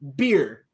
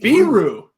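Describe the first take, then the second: First: The name is said as beer. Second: The name is said as Biru. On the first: This is how the announcer said the name. The speaker calls it wrong. "calling him Guillermo Beer" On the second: This is how the team says the name. The speaker calls it right. "the team pronunciation on the site ... is very clear"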